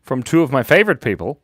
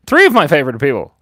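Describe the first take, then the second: First: Said in the usual way. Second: Three corrected with a louder push; stress on Three. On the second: Real, not acted. Streamer correcting her own count, stress on Three. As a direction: hit the word Three firmly.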